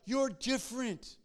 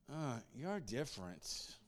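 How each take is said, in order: First: It is said in a plain, neutral tone. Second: It is said with a disdainful attitude.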